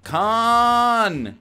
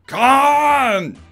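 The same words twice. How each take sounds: First: It is said with little energy. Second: It is said with much more energy.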